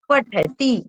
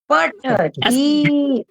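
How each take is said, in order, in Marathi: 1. शेवटचा स्वर ह्रस्व ठेवायचा. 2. शेवटचा स्वर दीर्घ उच्चारायचा. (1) "ऱ्हस्व ती आहे" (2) "असं नाही म्हणायचं"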